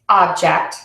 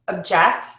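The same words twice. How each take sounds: First: The stress is on the first syllable. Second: The stress is on the second syllable. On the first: It is used as a noun. "the first syllable is typically stressed in nouns" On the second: It is used as a verb. "The second syllable is stressed"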